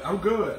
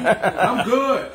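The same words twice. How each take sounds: First: Said in the usual way. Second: Laughing. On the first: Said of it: "That's a serious voice". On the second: Real, not acted. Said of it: "Tony, you sound hoarse".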